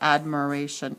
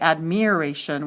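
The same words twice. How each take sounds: First: The second vowel is a reduced schwa sound. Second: The second vowel is a long I sound. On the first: The speaker calls it right. "we say admiration. ... that's a schwa" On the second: The speaker calls it wrong. "We don't say admiration"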